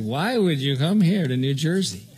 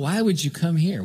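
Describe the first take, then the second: First: Mild mock sarcasm on would; lightly sneering disbelief; a hint of sarcastic neighbours asking why he came. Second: Said in the usual way. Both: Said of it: "everybody said it with this sarcastic".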